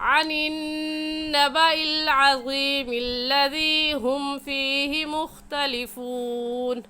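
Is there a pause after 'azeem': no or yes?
no. The words run together with no pause. "अगर हम मिलाकर पढ़ेंगे तो ऐसे पढ़ा जाएगा"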